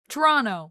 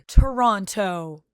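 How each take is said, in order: First: It is said the local Toronto way. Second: It is said the standard, non-local way.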